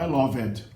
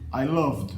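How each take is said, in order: First: The -ed ending is said as an extra syllable. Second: The -ed ending adds no extra syllable. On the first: The speaker calls it wrong. "não" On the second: The speaker calls it right. "ele é pronunciado no passado loved"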